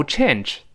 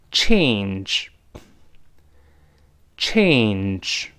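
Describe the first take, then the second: First: "change" as chen-zh, short e without glide; mispronounced change. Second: "change" drawn out with long ay before n; model change. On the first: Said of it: "但不要读change". (把“change”错读成短促的“陈之”) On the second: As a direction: hold the ay glide in "change", then nj. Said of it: "跟老师大声读". (“change”拉长双元音ei再加n) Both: Shown as a demonstration.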